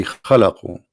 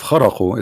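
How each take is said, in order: First: "khalaqu" pronounced with L after the kh; corrected Arabic word. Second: "kharaqu" pronounced with R after the kh; mistaken Arabic word. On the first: Teacher naming what it should be, khalaqu with L. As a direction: say "khalaqu" with L, not R. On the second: Teacher naming the word to be replaced, kharaqu with R. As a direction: say "kharaqu" with R, not L. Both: Shown as a demonstration. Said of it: "it should be khalaqu".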